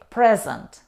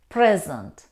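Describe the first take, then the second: First: The stress is on the first syllable. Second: The same.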